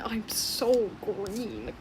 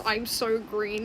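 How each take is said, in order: First: Slow, drawn-out I'm so green; quoting the green one. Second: Slightly slowed I'm so green; a lighter repeat of the green line; quoting the green one. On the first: Telling viewers the green one's only line, slow. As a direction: stretch it out like the little green ball. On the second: Telling viewers its only line, slightly slowed. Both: Retold or imitated. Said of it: "That's all it says is".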